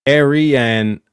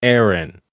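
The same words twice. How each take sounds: First: "Arian" drawn out as air-ee-an; E in the middle. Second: "Aaron" as air-en, two syllables; E taken out. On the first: Streamer contrasting two similar words, E in the middle. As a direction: say "Arian" slowly with a clear middle ee. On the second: Streamer contrasting two similar words, E taken out. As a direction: say "Aaron" slowly with no middle ee. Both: Shown as a demonstration. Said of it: "take out the E in the middle".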